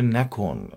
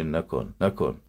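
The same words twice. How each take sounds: First: «نکن» short and crisp Tehran style; quick clipped «نکن» the Tehran way; Tehran pronunciation. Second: «نکن» with long stretched final «ن»; provincial pronunciation. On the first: Teacher contrasts Tehran pronunciation. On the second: Teacher contrasts provincial stretched form. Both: Shown as a demonstration.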